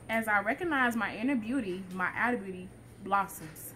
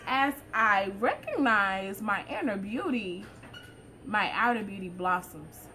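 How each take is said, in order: First: It is read in a plain, less confident tone. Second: It is read in a more confident tone.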